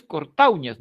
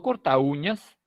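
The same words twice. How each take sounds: First: Cortauñas stressed on úñ, cor-ta-ÚÑAS; cortauñas with u and a split, u stressed. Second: Cortauñas said slowly, stressed on the a, cor-TÁU-ñas; slow cortauñas with au as one glide; cortauñas with the weight on the a; wrong stress, slowly. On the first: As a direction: lean on the u of cortauñas. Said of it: "Aquí lo que se dice es cortauñas". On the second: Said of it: "no cortauñas". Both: Shown as a demonstration.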